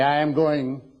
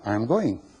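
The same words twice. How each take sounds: First: It is said in an angry tone. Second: It is said in a friendly, helpful tone.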